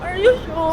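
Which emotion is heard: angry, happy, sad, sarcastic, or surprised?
sad. It is said in a sad tone.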